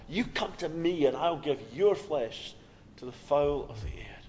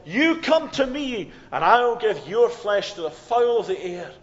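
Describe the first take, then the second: First: Said in the usual way. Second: Threatening giant. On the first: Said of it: "He said the same thing". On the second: Acted. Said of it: "threatening Philistine giant who said".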